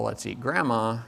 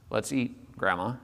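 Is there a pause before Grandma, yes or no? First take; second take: no; yes. First: There is no pause before Grandma. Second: There is a pause before Grandma.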